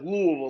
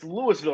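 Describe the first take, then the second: First: The syllables are slurred together into one lump. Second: The syllables are said clearly and separately. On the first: This is how locals say it. The speaker calls it right. "it all has to slur together" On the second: This is how outsiders say it. The speaker calls it wrong. "people are like, it's Louisville"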